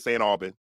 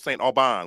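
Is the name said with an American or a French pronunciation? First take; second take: American; French. First: It is said with an American English pronunciation. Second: It is said with a French pronunciation. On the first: This is how locals say it today. "we say Saint Aubin today" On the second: This is the original French form. "what his name was at the time"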